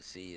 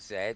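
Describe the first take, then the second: First: The letter is said the American way, 'zee'. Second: The letter is said the British way, 'zed'.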